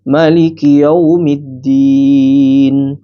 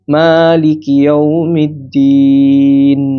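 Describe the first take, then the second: First: The vowel after the m is short. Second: The vowel after the m is long. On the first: This is the reading used in Egypt, Morocco or Sudan. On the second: This is the usual reading in Indonesia.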